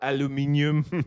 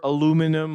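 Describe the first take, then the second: First: It is said with a British pronunciation. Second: It is said with an American pronunciation. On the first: "or British" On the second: "depending on whether you're American"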